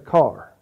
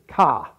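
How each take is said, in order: First: It is said the local way. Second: It is said with a Northeastern accent.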